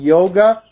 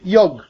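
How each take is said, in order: First: The word ends with a final a vowel. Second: The word ends without a final vowel. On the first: This is the Sanskrit pronunciation. "instead of saying yoga" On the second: This is the Hindi pronunciation. "they say yog, because in Hindi you cut the final A"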